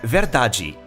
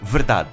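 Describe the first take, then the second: First: It is said in a Brazilian Portuguese accent. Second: It is said in a European Portuguese accent.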